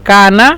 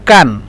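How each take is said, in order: First: The word ends with an extra vowel sound. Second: The word ends on a bare consonant. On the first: This is the Egyptian way of saying it. "মিশরীরা বলে কানা" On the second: This is the Saudi way of saying it. "আর ওরা বলে কান, মানে ওরা সাকিনটা বেশি দেয়।"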